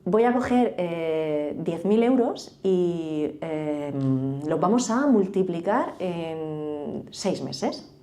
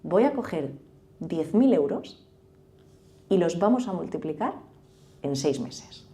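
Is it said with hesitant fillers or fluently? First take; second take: fillers; fluently. First: It is broken up by hesitant 'eh' fillers. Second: It is said smoothly without any filler sounds.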